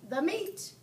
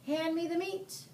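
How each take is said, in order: First: High echoing shout; crew shout. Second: Higher pirate demand; captain demanding meat. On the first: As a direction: shout it back. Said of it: "we all shouted". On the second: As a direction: bark it with a mouthful. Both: A narrator's reading.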